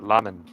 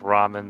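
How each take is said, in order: First: The word begins with an L sound. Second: The word begins with a hard R sound. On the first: "like with, with an L" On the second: "like a hard R"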